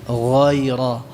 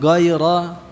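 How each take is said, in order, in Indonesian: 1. Konsonan pertama diucapkan lunak. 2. Konsonan pertama diucapkan keras. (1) "pengucapannya lunak" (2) "Bukan ghaira"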